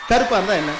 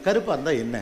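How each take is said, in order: First: கருப்பா இருந்தா என்ன said with defiant stress on கருப்பா; defiant retake. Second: Said in the usual way. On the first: Shown as a demonstration. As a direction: hit கருப்பா firmly as a challenge. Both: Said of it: "இல்ல".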